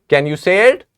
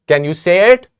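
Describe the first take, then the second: The two takes are said the same way.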